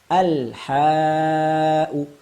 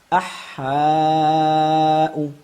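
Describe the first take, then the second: First: The L is pronounced clearly before the H. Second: The L is merged into a doubled H. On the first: The speaker calls it right. "kita praktekkan al-ha'u" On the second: The speaker calls it wrong. "Salah bila kita membacanya dengan idgham syamsiyah demikian"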